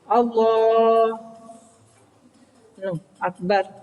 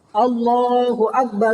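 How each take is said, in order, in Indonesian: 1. Jeda panjang memisahkan kedua kata itu. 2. Kedua kata itu menyambung tanpa jeda. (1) "tidak boleh suwe-suwe mandek" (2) "itu tidak apa-apa"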